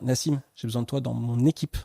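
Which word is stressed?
équipe. The emphasis falls on "équipe". The person should act as part of the team. "tu as un peu tendance à faire ta life dans l'équipe"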